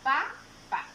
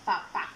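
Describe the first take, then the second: First: "Pa, pa" as two separate beats; teacher counting out each "pa" on its own; syllable by syllable. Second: Said in the usual way. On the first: Shown as a demonstration. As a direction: say "Pa, pa" with a clear gap between the syllables. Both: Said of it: "dos golpes de voz".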